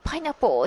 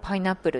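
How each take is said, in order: First: It is said with a native English pronunciation. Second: It is said with Japanese katakana sounds.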